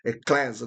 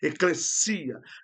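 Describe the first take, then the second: First: The stress falls on the syllable 'le'. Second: The stress falls on the syllable 'si'. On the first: The speaker calls it wrong. "O acento não está no e" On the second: The speaker calls it right. "é no i"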